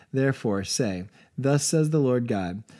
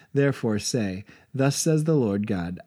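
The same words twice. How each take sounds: The two takes are said the same way.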